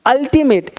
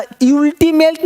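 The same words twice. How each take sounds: First: अल्टीमेट begun with a short 'ul' as in up; correct pronunciation. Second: अल्टीमेट begun with 'yool', higher pitched; wrong pronunciation. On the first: Teacher correcting the U sound, correct pronunciation. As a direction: open अल्टीमेट on 'uh', falling. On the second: Teacher showing what is never said, wrong pronunciation. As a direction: give अल्टीमेट a 'you' sound at the start. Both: Shown as a demonstration. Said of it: "अल्टीमेट नहीं कहते".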